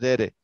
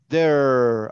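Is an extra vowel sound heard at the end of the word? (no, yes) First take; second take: yes; no. First: An extra vowel is pronounced at the end. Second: No extra vowel is pronounced at the end. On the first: The speaker calls it wrong. "la E al final no se pronuncia. Se escribe, pero no se dice there" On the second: The speaker calls it right. "Solo es there"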